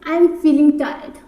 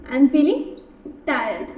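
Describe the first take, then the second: First: Slow, word by word; slow dictation read; very slow model line. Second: Said in the usual way. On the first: Shown as a demonstration. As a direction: lay each word out for learners. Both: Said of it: "basic English में".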